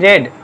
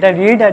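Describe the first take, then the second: First: The vowel is short, like 'red'. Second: The vowel is long, like 'reed'. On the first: It is the past tense. "বানান কিন্তু একই, শুধু উচ্চারণটা কিন্তু আলাদা" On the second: It is the present tense.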